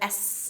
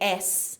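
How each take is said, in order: First: The s sound is said on its own. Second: An e vowel is added before the s. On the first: "instead of S" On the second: "we say S"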